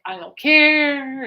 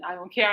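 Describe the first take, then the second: First: Slow, loud, drawn-out don't care; sarcastic. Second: Said in the usual way. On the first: Retold or imitated. Alice dismissing her band-name idea with loud sarcasm. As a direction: stretch it out, flatly dismissive. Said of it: "he's like".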